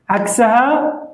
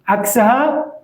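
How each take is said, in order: Both takes have the same delivery.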